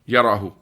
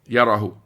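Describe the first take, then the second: Both takes have the same delivery.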